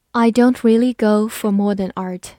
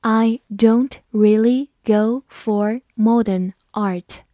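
First: Said in the usual way. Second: Slow, deliberate reading for the class; careful slowed-down teacher read. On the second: Shown as a demonstration. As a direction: read it slowly, word by word. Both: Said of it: "好，慢慢来读".

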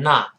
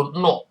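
First: American "not" with an open ah; "not" with an unrounded American vowel; American pronunciation. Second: British "not" with a rounded o; "not" with a short British o; British pronunciation. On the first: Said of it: "美国还是把O变成啊". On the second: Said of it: "英国人读not". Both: Shown as a demonstration.

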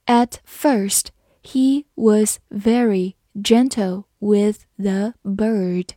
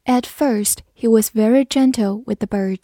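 First: Slow, word-by-word model reading; slow read-through. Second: Said in the usual way. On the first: Shown as a demonstration. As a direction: read it slowly with small gaps between words. (一词一顿地慢读) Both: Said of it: "慢读一遍".

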